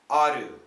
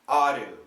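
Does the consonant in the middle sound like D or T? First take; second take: D; D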